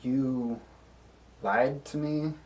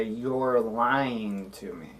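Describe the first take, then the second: First: "lied to me" rising into a question; question intonation. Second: "lying to me" slow, falling at the end; said as a statement. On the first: Player confronting the character over a lie, rising question. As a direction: lift the end of "lied to me" as a yes-or-no question. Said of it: "Question mark, yes or no?". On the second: Player telling the character he is lying, falling statement. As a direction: draw out "lying" and let "me" fall. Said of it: "I'm gonna say it like a statement". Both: Acted.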